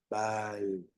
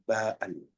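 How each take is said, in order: First: The vowel is held long and smooth. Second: The vowel is cut by a glottal catch. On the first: "quiere decir que la A es larga, es como decir bal" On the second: "el sonido, eh, un sonido eh, glotal. En lugar de decir bal"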